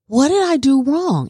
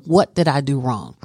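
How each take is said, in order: First: Higher, pleading question with a push on "did"; higher pleading "What did I do wrong?"; retold plea to teacher. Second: Said in the usual way. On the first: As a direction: ask the teacher anxiously, leaning on "did". Asking teacher after class.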